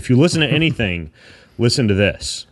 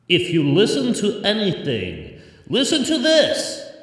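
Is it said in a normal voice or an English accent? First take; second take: normal voice; English accent. First: It is said in his normal voice. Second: It is said in an inspirational English accent.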